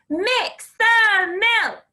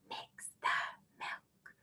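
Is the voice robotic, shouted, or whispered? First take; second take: shouted; whispered. First: The words are shouted loudly. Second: The words are whispered softly. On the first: "Can you shout it?" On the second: "Can you whisper it?"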